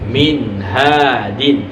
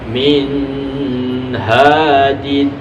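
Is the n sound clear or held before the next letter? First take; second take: clear; held. First: The n sound is clear, not held. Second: The n sound is held before the next letter. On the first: The speaker calls it right. "harus dibaca jelas" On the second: The speaker calls it wrong. "di sini tidak boleh min hadin"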